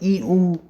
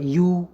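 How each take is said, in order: First: A full ee is followed by long oo. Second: A y glide runs straight into long oo. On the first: "ई के पीछे जोड़ दीजिए ऊ, मतलब तो बनेगा ई ऊ" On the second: "य के पीछे लॉन्ग ऊ को जोड़ दे तो बनेगा यू"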